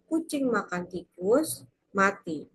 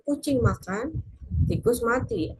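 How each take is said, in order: First: There is a pause after tikus. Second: There is a pause after makan.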